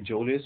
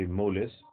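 First: The word begins with a J sound. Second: The word begins with an M sound. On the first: "either you say jolis" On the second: "or you say molis"

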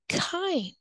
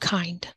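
First: The vowel is a long i sound. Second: The vowel is a short i sound. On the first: The speaker calls it right. "This is a long I" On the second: The speaker calls it wrong. "This is where they say kind instead of kind"

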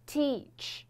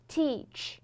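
No difference in how they are said.

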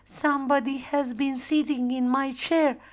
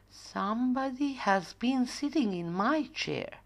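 First: The voice is small, high and babyish. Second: The voice is quiet, soft and gentle. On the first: The little bear is speaking. "say in small, baby voice" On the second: The mother bear is speaking. "said in a quiet, gentle voice"

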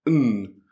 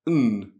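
First: The word is reduced to just an n sound. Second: The word is reduced to just an n sound.

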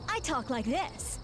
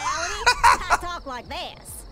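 First: It is spoken without a noticeable accent. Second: It is spoken with a noticeable accent. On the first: This is the voice used on television to sound smarter. "on the news, I talk like this. ... GNN thinks I sound smarter without the accent" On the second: This is the natural everyday way of talking. "When in reality, I talk like this"

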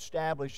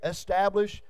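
First: The word starts directly with 'st', no vowel. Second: The word starts with a vowel before 'st'. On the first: This is the older form of the word. "in the King James" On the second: This is the form used today. "where the E came from that we use today"

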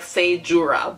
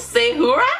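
First: The name's consonant is said as an English J. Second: The name's consonant is said as an H. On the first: "if I'm just gonna say it the way it says" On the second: "it's like pronounced like a huh"

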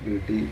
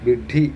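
First: The middle consonant is pronounced loosely and carelessly. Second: The middle consonant is pronounced carefully and distinctly. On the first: This is how people commonly mispronounce it. The speaker calls it wrong. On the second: This is how the word should be said. The speaker calls it right.

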